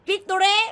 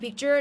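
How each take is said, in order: First: The word is said with three syllables. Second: The word is said with two syllables. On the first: The speaker calls it wrong. "บางคนอ่านพิกตูเร่" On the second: The speaker calls it right. "บางคนไม่อ่าน"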